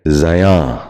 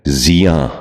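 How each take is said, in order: First: زیاں starting with za, "za-yaan"; mispronounced زیاں. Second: زیاں starting with zi, "zi-yaan"; correct زیاں. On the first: Teacher showing viewers a common mistake, زیاں said as "zayaan". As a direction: put a short a before the y in زیاں. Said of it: "غلط تلفظ ہے". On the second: Teacher modelling for viewers, زیاں said as "ziyaan". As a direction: put an i before the y in زیاں. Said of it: "درست تلفظ ہے". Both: Shown as a demonstration.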